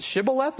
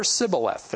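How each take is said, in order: First: Shibboleth with a clear SH; Shibboleth, SH fully sounded. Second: Sibboleth with a plain S; Sibboleth, S where SH should be; S instead of SH. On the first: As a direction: say Shibboleth with a hushing first sound. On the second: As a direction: say Sibboleth, dropping the H from SH. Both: Shown as a demonstration. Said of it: "depending on how they pronounce Shibboleth".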